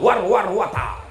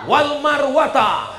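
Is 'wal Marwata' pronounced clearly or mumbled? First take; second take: mumbled; clearly. First: The words are slurred into a garbled mumble. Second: The words are pronounced clearly and accurately. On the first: The reciter is just copying without knowing the verse. The speaker calls it wrong. "ada juga yang nggak pernah baca ayat, asal ngikut aja" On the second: The reciter knows the verse. The speaker calls it right. "Itu yang betul"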